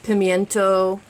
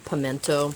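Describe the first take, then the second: First: It has a 'y' glide after the 'm'. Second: It has no glide after the 'm'.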